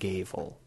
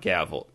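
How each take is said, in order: First: The first vowel is a long a. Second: The first vowel is a short a. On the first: The speaker calls it right. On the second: The speaker calls it wrong.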